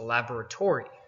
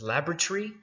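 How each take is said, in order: First: It is said with an American pronunciation. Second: It is said with a British pronunciation. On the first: This is the newer form used in America. "are now changed to" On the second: This is the older aristocratic English form. "which is the way they pronounce it in England"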